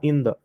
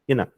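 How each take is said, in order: First: The th sound is fully pronounced. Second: The th is dropped, n links to vowel. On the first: "não vai ficar in the" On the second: "eles cortam esse T H ... e ligam esse N aqui lá no E"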